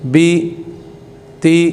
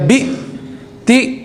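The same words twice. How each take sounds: First: Each syllable is said smoothly without a jerk. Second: Each syllable is cut off with an abrupt jerk. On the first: The speaker calls it right. "बल्कि इसको उसकी आवाज़ के साथ पढ़ना है" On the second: The speaker calls it wrong. "झटका भी नहीं देना ... ऐसे नहीं इसको बनाना"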